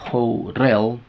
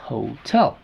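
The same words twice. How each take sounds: First: The T is a quick flap, like a soft D. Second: The T is a clear, full T sound. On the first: The speaker calls it wrong. "yo no puedo decir hotel" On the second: The speaker calls it right. "Tengo que decir hotel"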